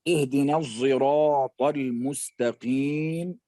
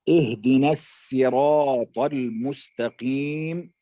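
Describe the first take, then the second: First: The word begins with a z-like sound. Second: The word begins with a plain s sound. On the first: "يبدل الصاد زايا" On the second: "يبدل الصاد سينا"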